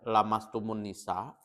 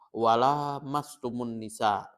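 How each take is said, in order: First: The vowel after the l is short. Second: The vowel after the l is long. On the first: "boleh dibaca lamastumun nisa tanpa uh, lam alif" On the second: "Lamnya diba, uh, dibaca panjang"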